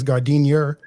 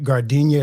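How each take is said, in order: First: The word ends with an 'er' sound. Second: The word ends with an 'ah' sound.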